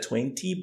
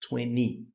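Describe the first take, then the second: First: The T after the N is pronounced. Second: The T after the N is dropped. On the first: "You said twenty" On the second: "you can also say twenty"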